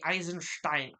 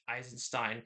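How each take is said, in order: First: The name is pronounced the German way. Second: The name is pronounced the usual English way.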